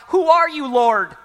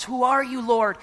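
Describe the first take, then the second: First: A loud, high cry up to heaven; startled cry. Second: Said in the usual way. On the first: Acted. Saul on the road crying out to the voice, loud and high. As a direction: Saul calls out to the blinding light, loud and high.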